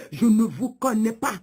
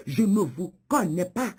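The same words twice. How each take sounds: The two takes are said the same way.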